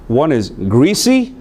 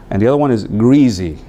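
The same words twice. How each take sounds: First: Greasy with a hissing s, GREE-see; s sound. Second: Greasy with a buzzing z, GREE-zee; z sound. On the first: Teacher shows the first way, greasy with an s. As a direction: say greasy with a clear s in the middle. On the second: Teacher shows the second way, greasy with a z. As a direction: say greasy with a voiced z in the middle. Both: Shown as a demonstration. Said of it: "two ways to say that word".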